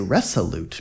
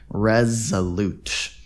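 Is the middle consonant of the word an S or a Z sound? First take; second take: S sound; Z sound. First: The middle consonant is a hissing S sound. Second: The middle consonant is a buzzing Z sound. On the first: The speaker calls it wrong. "It looks like we say resolute because of this S" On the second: The speaker calls it right. "actually it's pronounced with a Z"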